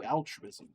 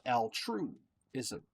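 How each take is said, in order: First: Said in the usual way. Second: Altruism with TRUE punched out, then a break before -ism; stress on TRUE. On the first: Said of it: "Or as I like to call it". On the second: Shown as a demonstration. Coining his own term for viewers, altruism with a heavily stressed TRUE. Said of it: "with true being in caps".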